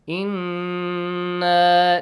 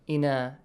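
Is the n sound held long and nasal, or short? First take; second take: held long; short. First: The n sound is held long and nasal. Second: The n sound is short without nasal hold. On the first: The speaker calls it right. "This nasal sound you should have" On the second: The speaker calls it wrong. "Make sure you do not say إِنَا"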